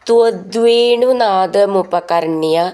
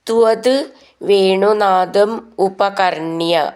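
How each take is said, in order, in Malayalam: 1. വാക്കുകൾ ഇടവേളയില്ലാതെ ഒന്നിച്ചു ചേർത്താണ് ചൊല്ലുന്നത്. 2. വാക്കുകൾ വേറെ വേറെയായി, ഇടവേളകളോടെ ചൊല്ലുന്നു.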